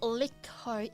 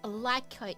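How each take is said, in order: First: The first vowel sounds like in 'lick'. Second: The first vowel sounds like in 'like'. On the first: The speaker calls it wrong. "My name is not Licko" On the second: The speaker calls it right. "It's Lyco"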